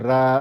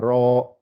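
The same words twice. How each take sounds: First: The r syllable is light, not inflated. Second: The r syllable is heavy and inflated. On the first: The speaker calls it wrong. "pas ra" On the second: The speaker calls it right. "mais c'est ra ... on gonfle"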